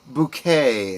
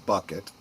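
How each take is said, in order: First: The name sounds like 'boo-kay', stress at end. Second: The name sounds like 'buck-it', stress at start. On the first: This is the character's own posh version of the name. "as she pronounced it" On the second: This is what everyone else calls her. "Everyone else called her"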